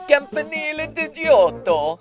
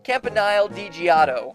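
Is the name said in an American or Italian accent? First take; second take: Italian; American. First: It is said in an exaggerated Italian accent. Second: It is said in an American English accent. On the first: "It's a me, Mario!" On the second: "as the Americans pronounce it"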